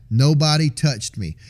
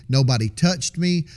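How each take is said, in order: First: Nobody said slowly and pressed hard; stress on Nobody. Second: Said in the usual way. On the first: Shown as a demonstration. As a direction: lean on "Nobody", slow and insistent. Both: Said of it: "I do know that".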